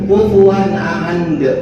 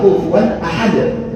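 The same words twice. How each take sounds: First: The final sound comes out like an n. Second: The final d is released with a bounce. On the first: The speaker calls it wrong. "jadinya huruf n" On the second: The speaker calls it right. "Padahal kufuwan ahad, gitu dia"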